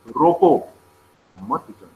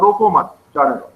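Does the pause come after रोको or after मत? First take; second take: after रोको; after मत. First: There is a pause after रोको. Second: There is a pause after मत.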